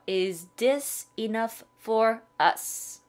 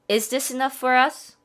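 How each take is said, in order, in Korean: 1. 이 문장은 천천히 말했어요. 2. 이 문장은 빨리 말했어요. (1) "조금 천천히 갈게요" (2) "빨리 한번 가면"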